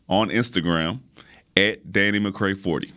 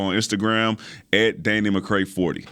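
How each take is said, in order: First: It is said at a slower, careful pace. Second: It is said at a quick, rushed pace. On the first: The speaker calls it right. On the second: The speaker calls it wrong.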